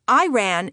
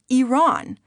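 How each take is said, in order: First: The word begins with an 'eye' sound. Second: The word begins with an 'ee' sound. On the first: It means someone ran. The speaker calls it wrong. "Iran is a sentence, I told them, as in, "I ran away" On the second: It names the country. The speaker calls it right. "The correct pronunciation, I always inform them, is Iran"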